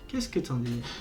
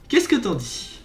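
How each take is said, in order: First: It is said quietly and solemnly. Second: It is said in a normal, louder voice.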